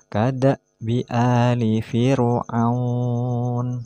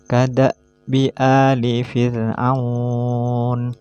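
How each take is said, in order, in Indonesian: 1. Bunyi ra itu berat dan tebal. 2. Bunyi ra itu ringan dan tipis. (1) "Tidak boleh dibaca" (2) "Harus dibaca tipis"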